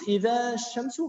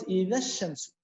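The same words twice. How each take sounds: First: "إذا الشمس" asked with the alif said long, rising; wrong alif reading. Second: Said in the usual way. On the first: Shown as a demonstration. Teacher questions the class, wrong alif reading with a rise. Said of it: "هل قلت". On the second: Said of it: "أنا قلت".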